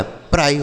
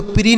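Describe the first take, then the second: First: "प्राई" rhyming with "fry", falling; PRI read as "pry". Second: "प्री" rhyming with "free"; PRI read as "pree". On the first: Teacher recapping the rule for pupils, "प्राई" with eye sound. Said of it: "प्राई पढ़ना है". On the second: Teacher recapping what pupils must avoid, "प्री" with ee. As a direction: say "प्री" with a long ee. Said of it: "तो प्री नहीं पढ़ना है". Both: Shown as a demonstration.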